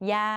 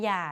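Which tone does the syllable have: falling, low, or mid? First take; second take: mid; low. First: The syllable is said on a level mid tone. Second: The syllable is said on a low tone. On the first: "เสียงสามัญ" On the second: "เอก"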